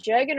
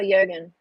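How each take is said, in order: First: "Jurgen" with an English J, as in "jug"; J pronunciation. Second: "Jurgen" with the J said as Y; Y pronunciation. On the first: Streamer asking how to say a viewer's name, "Jurgen" with English J. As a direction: say "Jurgen" starting with a hard English J sound. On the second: Streamer offering the other way to say a name, "Jurgen" with Y sound. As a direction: say "Jurgen" as if spelt "Yurgen". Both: Shown as a demonstration. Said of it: "Is it Jurgen or Jurgen?".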